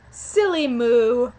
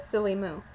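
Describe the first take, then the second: First: Loud, drawn-out playful jibe; slow, emphatic pretend name-calling; mock insult. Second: Said in the usual way. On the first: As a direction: stretch SILLY MOO out loudly. Performs the insult, then confirms it.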